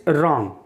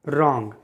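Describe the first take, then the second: No difference in how they are said.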